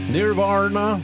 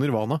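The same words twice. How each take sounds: First: The name is said with an American pronunciation. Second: The name is said with a Norwegian pronunciation. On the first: This is how people in America say it. "som de sier i Amerika" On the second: This is what the name is really called. "for det heter jo Nirvana"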